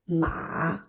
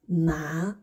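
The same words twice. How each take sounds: First: The syllable is said with the third tone. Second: The syllable is said with the second tone.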